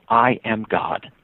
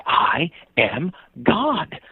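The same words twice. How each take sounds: First: Said in the usual way. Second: Very slow, high, solemn declaration; mock earnestness. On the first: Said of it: "the kid looked at me and said". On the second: Boy tells cyclist he's a deity, imitated solemn earnestness. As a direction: space out each word with great earnest weight. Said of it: "looked at me again with earnestness".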